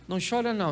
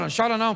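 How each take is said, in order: First: It sounds calm, confident and reassuring. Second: It sounds dismissive and mocking.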